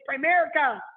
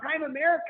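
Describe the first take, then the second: First: It sounds like one blended word, Primerica. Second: It sounds like two words, Prime and America. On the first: The speaker calls it right. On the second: The speaker calls it wrong.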